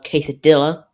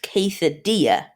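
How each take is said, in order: First: The double L is said as an L sound. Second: The double L is said as a Y sound. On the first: The speaker calls it wrong. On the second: The speaker calls it right.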